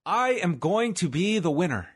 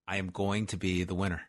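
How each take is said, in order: First: Higher, emphatic, sing-out mantra; rousing affirmation. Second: Low, soft, measured chant; low-key affirmation. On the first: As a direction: build it into a big affirmation. Affirmation building, third take. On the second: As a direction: say it quietly, as a first mantra. Chanting affirmation, first take. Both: Pretend.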